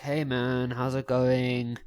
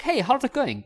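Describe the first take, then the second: First: Drawn-out, sluggish greeting; low energy. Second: High-pitched, overeager greeting; hammed-up, over-the-top hello; too much energy. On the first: Acted. Tired guy walking up to a girl, low-energy greeting. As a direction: greet like you're running on empty. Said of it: "running on about three percent energy". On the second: Guy walking up to a girl, overdoing the energy. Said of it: "that's a bit too much".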